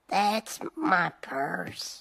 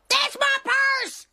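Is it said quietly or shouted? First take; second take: quietly; shouted. First: It is said quietly, without shouting. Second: It is shouted loudly.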